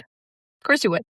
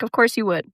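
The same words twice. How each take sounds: First: Slow, knowing sarcasm; Of course you would drawn out slowly and mockingly. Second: Said in the usual way. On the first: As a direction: stretch it out, dripping with irony. Repeated sarcastic punchline.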